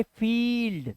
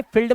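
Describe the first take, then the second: First: फील्ड with a long, drawn-out ई; long vowel. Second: फील्ड misread with a quick, short इ; wrong short vowel. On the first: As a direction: stretch the "ee" in फील्ड. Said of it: "इसे पढ़ेंगे फील्ड". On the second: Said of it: "अब इसे फील्ड मत पढ़ना". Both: Shown as a demonstration.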